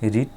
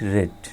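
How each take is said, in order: First: The vowel is long, like 'reed'. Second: The vowel is short, like 'red'. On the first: It is the present tense form. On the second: It is the past tense form.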